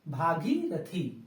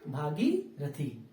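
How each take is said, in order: No difference in how they are said.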